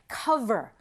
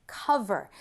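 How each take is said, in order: No difference in how they are said.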